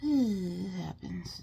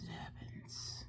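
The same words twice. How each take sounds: First: Slow sighing acceptance; resigned sigh. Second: Soft unvoiced whisper, slow; resigned whisper. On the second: Whispering to viewers that her watering eye can't be helped. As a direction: let the words go in a tired whisper. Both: Real, not acted.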